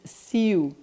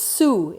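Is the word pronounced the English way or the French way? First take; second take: French; English. First: The word is pronounced the French way. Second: The word is pronounced the English way. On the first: "the French pronounce it Sioux" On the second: "Sioux is Sioux in English"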